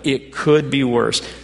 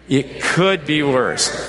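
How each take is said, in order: First: It is said plainly, without much energy. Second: It is said with passion and joy.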